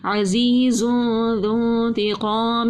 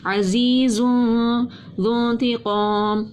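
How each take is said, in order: First: عزیز ذو انتقام slowly, whistle only on the ز of عزیز; Quranic recitation demo. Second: عزیز ذو انتقام repeated, ز hissing, ذ without whistle; Quranic recitation demo. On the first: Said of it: "اس میں سیٹی کی آواز نہیں آئے گی". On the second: Tajweed teacher repeats the contrast for students, slow recitation. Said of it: "اس میں سیٹی کی آواز آئے گی". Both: Shown as a demonstration.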